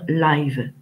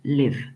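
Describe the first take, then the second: First: The vowel sounds like the word 'eye'. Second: The vowel sounds like the vowel in 'it'. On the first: It describes something happening in real time, like a concert. The speaker calls it wrong. "vous avez tendance à dire live" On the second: It is the verb meaning to reside or be alive. The speaker calls it right. "pour la prononciation, c'est live"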